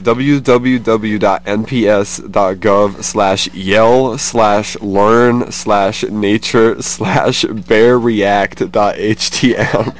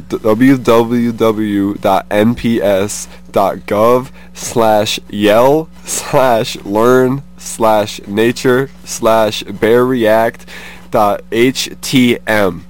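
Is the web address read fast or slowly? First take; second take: fast; slowly. First: It is read at a quick pace. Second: It is read at a slower pace.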